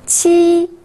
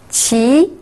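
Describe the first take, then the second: First: The pitch stays high and level. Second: The pitch rises from mid to high.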